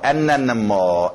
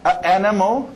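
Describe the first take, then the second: First: An n sound links the two vowels smoothly. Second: Two vowels meet with no linking n sound. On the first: The speaker calls it right. "flui melhor" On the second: The speaker calls it wrong. "tem um choque aí"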